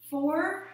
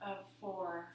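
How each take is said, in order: First: Higher, louder count that lifts at the end; rising inhale count. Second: Lower, much softer count; soft exhale count. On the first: Yoga teacher counting the class's inhalation, rising lilt. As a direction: lift the number as the breath fills. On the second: Yoga teacher counting the class's exhalation, soft and low. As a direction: let the voice sink with the breath out. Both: Shown as a demonstration.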